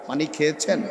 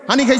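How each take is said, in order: First: It is said slowly, with every sound kept. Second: It is said fast, with sounds dropped. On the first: It sounds like standard speech. The speaker calls it right. "তার বলতে হবে আস্তে আস্তে করে" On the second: It sounds like regional speech. The speaker calls it wrong. "এই যে দ্রুত কথাটা বলে ফেলছে"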